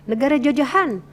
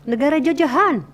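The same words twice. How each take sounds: Both takes have the same delivery.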